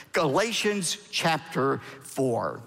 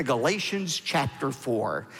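First: "Galatians chapter four" slowly and deliberately; measured, slower "Galatians chapter four"; slow repeat. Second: Said in the usual way. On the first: Real, not acted. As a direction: space out "Galatians chapter four" for listeners to find. Repeats the reference for page turning.

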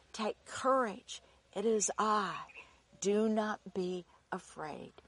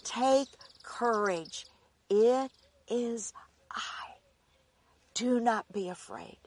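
First: Softer hushed reassurance. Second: Gentle reassurance. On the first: Jesus soothing his frightened disciples, softly and tenderly. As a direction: breathe it out like a calming promise. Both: Acted. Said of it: "Jesus spoke to them, saying".

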